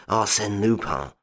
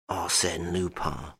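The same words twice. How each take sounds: First: Said in the usual way. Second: Much softer, slow, stunned murmur of the name Arsène Lupin. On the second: A narrator's reading. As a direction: let Arsène Lupin sink in, aghast. Duke stunned, face livid.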